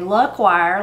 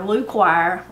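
First: The first vowel is short, as in luck. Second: The first vowel is long, as in Luke. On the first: This is the speaker's own pronunciation. "if you say luckwire like me" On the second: This is another person's pronunciation. "or lukewire like Dawn"

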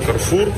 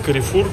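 First: The name is said with two syllables. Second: The name is said with three syllables. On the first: "вот в арабских странах он Карфур" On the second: This is how it is said locally here. "а здесь Карифур"

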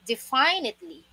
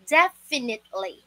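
First: The second syllable sounds like the word 'fine'. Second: The second syllable does not sound like 'fine'. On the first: The speaker calls it wrong. "because the root word of this word is define. Akala ng iba, ang pronunciation dito ay definitely" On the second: The speaker calls it right. "Ang correct pronunciation dito ay"

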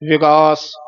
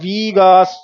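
First: The first vowel is a short i sound. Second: The first vowel is a long i sound. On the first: The speaker calls it right. "ਸਿਹਾਰੀ ਬੋਲਣੀ ਹੈ" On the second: The speaker calls it wrong. "ਬਿਹਾਰੀ ਵੀ ਨਹੀਂ ਲਾਉਣੀ"

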